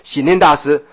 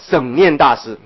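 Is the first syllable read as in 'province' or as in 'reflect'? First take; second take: reflect; province. First: The first syllable is read as in 'reflect'. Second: The first syllable is read as in 'province'. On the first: The speaker calls it right. "其实不念作省啊，念作省安大师的省" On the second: The speaker calls it wrong. "就是台湾省的省哈，我们这样念好了"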